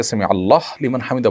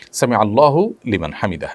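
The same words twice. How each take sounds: First: আল্লাহ closed on h, no final u; disallowed stopped form. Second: আল্লাহু ending in a voiced u; correct pronunciation. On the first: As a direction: clip the vowel off the end of আল্লাহ. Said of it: "বলার কোনো সুযোগ নেই". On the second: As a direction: link আল্লাহু to লিমান through its final vowel. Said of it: "এভাবে বলতে হবে". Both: Shown as a demonstration.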